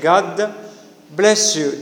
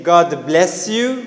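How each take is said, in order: First: The s and y merge into sh. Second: The s and y are said separately. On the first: "we say God bless you directly" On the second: "instead of saying"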